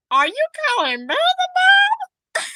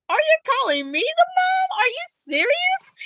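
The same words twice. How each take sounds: First: Very high, loud mock outrage; hammed-up, high-pitched indignant question; exaggerated disbelief. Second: High-pitched acted disbelief; astonished parent, pitched right up; incredulous retake. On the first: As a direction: squeal it in over-the-top shock. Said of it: "I didn't say it like that". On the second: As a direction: ask it high, in stunned protest. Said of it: "I didn't say it like that, but I'm like".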